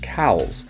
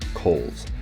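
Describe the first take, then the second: First: The vowel does not sound like 'coal'. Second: The vowel sounds like the vowel in 'coal'. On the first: "Normally here this is Cowles" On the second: "it is Coles, like you're mining coal"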